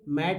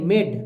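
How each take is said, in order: First: The vowel sounds like the 'a' in cat. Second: The vowel sounds like the 'ay' in day. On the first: The speaker calls it wrong. "मैड नहीं" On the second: The speaker calls it right.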